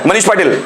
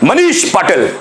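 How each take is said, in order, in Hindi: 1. नाम धीरे से, बिना ज़ोर के बोला गया है। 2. नाम ज़ोर से, दम के साथ बोला गया है।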